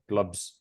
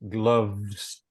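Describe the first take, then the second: First: The word ends with a b sound. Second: The word ends with a v sound. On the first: The speaker calls it wrong. "they tend to confuse V and B. So a word like gloves, they might say glubs" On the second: The speaker calls it right. "teeth, bottom lip, v, v, gloves"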